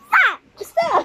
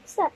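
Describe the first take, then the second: First: Sharp, loud, high stop; playful loud shout at a child. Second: Said in the usual way. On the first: Pretend. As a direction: yell it out like telling off a pretend dinosaur. Parent mock yelling at dinosaur game.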